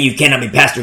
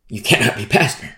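First: It sounds curt and dismissive. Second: It sounds earnest and sincere. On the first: The listener is being brushed off. "I don't say that as like, you know, hey" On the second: It is a sincere statement of belief. "I don't mean it like that"

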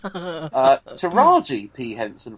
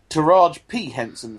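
First: The first name ends on an 'ee' sound. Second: The first name ends on a 'j' sound. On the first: The speaker calls it right. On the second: The speaker calls it wrong.

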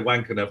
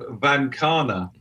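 First: The word begins with a w sound. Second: The word begins with a v sound. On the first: This follows the spelling and sounds rude to British ears. "I could say Wankana for the British audience, which always causes a titter" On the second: This is how the name is properly pronounced. "the pronunciation and the spelling are two completely different things"

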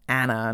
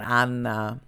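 First: The name is said with an Australian accent. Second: The name is said with a European pronunciation. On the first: "saying it with the Australian accent" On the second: "it's definitely a European name"

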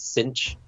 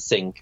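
First: The name ends with a 'ch' sound. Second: The name ends with a 'k' sound. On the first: The speaker calls it wrong. "I pronounced it as Cinch" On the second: The speaker calls it right. "as opposed to Sink"

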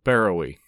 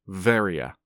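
First: The name begins with a B sound. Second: The name begins with a V sound. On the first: The speaker calls it wrong. "a place that I'd called Barrowy" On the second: The speaker calls it right. "it is in fact pronounced Varia, because it's Greek"

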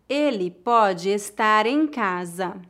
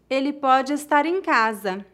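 First: The sentence is spoken slowly. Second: The sentence is spoken at natural speed. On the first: "uma vez mais devagar" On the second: "outra vez mais naturalmente"

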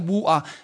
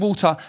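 First: The T is dropped, as a glottal stop. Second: The T is clearly pronounced, in a posher accent.

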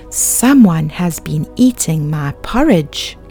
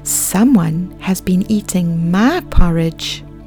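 First: It is said in a great big voice. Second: It is said in a medium-sized voice.

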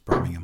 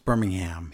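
First: It is pronounced the British way. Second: It is pronounced the American way. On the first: This is the city in England. "Over in England, it's Birmingham" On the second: This is the city in Alabama. "It's Birmingham here"

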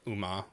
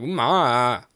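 First: It is said flatly, without emotion. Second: It is said with strong, upset emotion.

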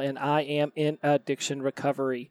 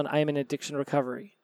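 First: The phrase is spoken slowly with clear enunciation. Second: The phrase is spoken quickly and runs together. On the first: The speaker calls it right. "I have to say that slow" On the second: The speaker calls it wrong. "I've tried saying it fast, and it sounds like this"

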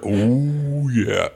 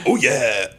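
First: It is said in a Ferris Bueller voice. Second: It is said in a Kool-Aid Man voice.

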